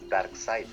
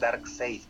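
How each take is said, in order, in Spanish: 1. La vocal después de la s suena como 'a'. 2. La vocal después de la s suena como 'e'. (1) "Pero es Darkseid. La E se pronuncia como A" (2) "Hay algunos que le dicen Darkseid"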